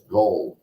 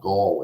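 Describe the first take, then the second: First: The vowel sounds like the one in 'dull'. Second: The vowel sounds like the one in 'call'. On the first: The speaker calls it right. "It's Gull. G U L L" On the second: The speaker calls it wrong. "It's not Gall"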